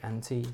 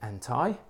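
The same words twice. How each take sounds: First: It is said in a British accent. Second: It is said in a North American accent.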